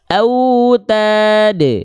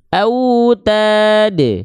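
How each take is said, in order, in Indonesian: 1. Huruf d terakhir berakhir dengan pantulan pendek yang bergema. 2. Huruf d terakhir berakhir dengan pantulan pendek yang bergema.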